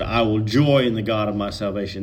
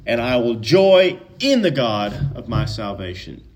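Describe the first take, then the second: First: Said in the usual way. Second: "joy" and "in the God" punched, then easing off; emphatic joy. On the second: Shown as a demonstration. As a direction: lean hard on "joy" and on "in the God". Rereads to bring out double joy.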